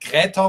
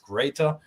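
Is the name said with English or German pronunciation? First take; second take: German; English. First: The name is said with German pronunciation. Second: The name is said with English pronunciation. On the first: "you pronounce it in German, like Greta, which sounds very harsh" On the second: "but in English it's greater"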